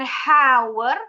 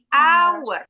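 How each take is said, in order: First: The word begins with an audible h sound. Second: The word begins with no h sound. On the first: The speaker calls it wrong. "bukan hour" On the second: The speaker calls it right. "H-nya silent"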